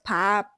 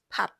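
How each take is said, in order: First: The final P is held and drawn out. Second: The final P is cut off short. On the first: The speaker calls it wrong. "not pap" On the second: The speaker calls it right. "just pap"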